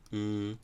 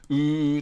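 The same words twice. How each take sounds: First: The vowel is said weakly and listlessly. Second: The vowel is said strongly and energetically. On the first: "弱い時はやる気なく" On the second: "強い時は、うーってすごいやる気を出す"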